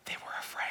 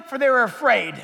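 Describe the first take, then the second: First: Breathy whisper to the congregation; whispered awe; hushed whisper. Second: Booming preacher voice; loud proclaiming. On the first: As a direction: drop to a secret whisper. Whispered end of the verse. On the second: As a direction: proclaim it loudly, full voice. Same words shouted after whisper. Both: Acted.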